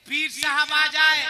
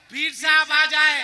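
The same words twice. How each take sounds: The two takes are said the same way.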